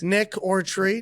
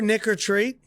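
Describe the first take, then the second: First: The phrase is said slowly. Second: The phrase is said quickly. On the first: The speaker calls it right. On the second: The speaker calls it wrong.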